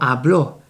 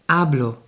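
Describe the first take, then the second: First: The stress is on the last syllable. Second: The stress is on the first syllable. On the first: The speaker calls it wrong. "it's not here, it's not hablo" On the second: The speaker calls it right. "es hablo"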